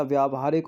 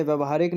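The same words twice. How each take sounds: First: व्यावहारिक starting with long 'vyaa'; correct long vowel. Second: व्यवहारिक starting with short 'vya'; incorrect short vowel. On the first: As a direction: say व्यावहारिक as vyaa-va-haa-rik. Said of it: "होता". (व्यावहारिक में लंबा 'व्या' बोलें) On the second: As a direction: say व्यवहारिक as vya-va-haa-rik. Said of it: "नहीं होता". (व्यवहारिक में छोटा 'व्य' बोलें) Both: Shown as a demonstration.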